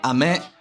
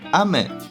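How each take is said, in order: First: The pitch starts low and rises high. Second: The pitch starts high and falls low. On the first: The word means rain. "with a low high pitch accent means rain" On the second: The word means candy. "with a high low pitch accent means candy"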